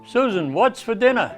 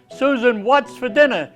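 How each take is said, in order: First: It is said at a normal volume. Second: It is yelled loudly.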